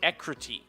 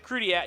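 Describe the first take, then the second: First: The name ends with a single 'teek' sound. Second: The name ends with a two-syllable 'dee-ak' sound. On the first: This is how people say it should be pronounced. "People are saying Ecruteak is how to pronounce this" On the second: This is a regional way of saying it. "I thought it was a Crudiac, ... like a New England pronunciation thing"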